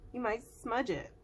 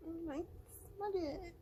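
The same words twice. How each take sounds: First: Said in the usual way. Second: High playful warning; high, cutesy. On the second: Pretend. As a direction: sing it up high like a tease.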